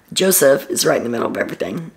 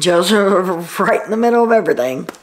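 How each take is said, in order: First: Said in the usual way. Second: A real laugh slipping into the sentence; laughing mid-line. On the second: Real, not acted. Vlogger fumbling the line about Joseph, laughing. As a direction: laugh through the name, then carry on.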